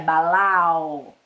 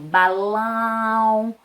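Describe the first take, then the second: First: The final vowel is oral, with no nasal sound. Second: The final vowel is nasal and closed. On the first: "Se não tivesse o tio, seria balau" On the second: "o tio traz para dar esse som mais nasalizado, ó, fechadinho"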